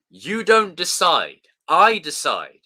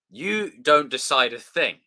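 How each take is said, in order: First: Loud, slow dramatic quote; movie line shout. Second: Said in the usual way. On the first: Pretend. Quoting a film to chat, loud and slow. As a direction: bark it like a villain.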